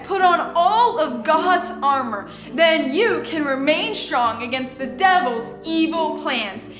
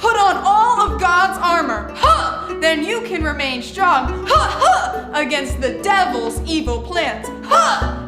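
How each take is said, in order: First: It is said in a calm, plain way. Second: It is said energetically with battle-ready shouts.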